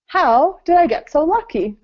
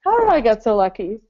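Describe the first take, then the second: First: Excited. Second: Said in the usual way. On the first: Shown as a demonstration. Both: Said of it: "Second one".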